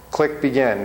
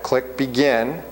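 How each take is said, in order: First: Said in the usual way. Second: "Click begin." said slowly, word by word, rising at the end; slow it right down so they can follow each click; slow, deliberate. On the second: Shown as a demonstration. Teacher walking the class through the exam steps, slowly. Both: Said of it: "Notice we haven't started the test yet".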